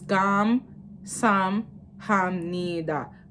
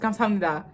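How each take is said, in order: First: It is said slowly, split into separate parts. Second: It is said quickly, run together as one. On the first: "when you break it up" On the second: "when I say it fast"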